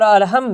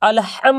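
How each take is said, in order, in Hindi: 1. 'h' हल्की, साँस वाली आवाज़ है। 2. 'h' गहरी, गले से निकलने वाली आवाज़ है। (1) "छोटी हा यहाँ पे अदा कर देते हैं" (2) "बड़ी हा अदा किए"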